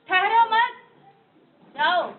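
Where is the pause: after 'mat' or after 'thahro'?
after mat. There is a pause right after मत. The listener is told not to stop but to go. "दूसरे में क्या बोला? ... रुको मत जाओ।"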